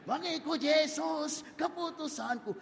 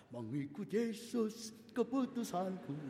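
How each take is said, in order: First: Joyful sung hymn. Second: Slow, soft sung hymn line. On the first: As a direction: sing it out happily. Girl sings hymn joyfully. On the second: Girl sings softly on her way to campus, slow and gentle. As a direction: hum the hymn to herself, slowly. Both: Acted.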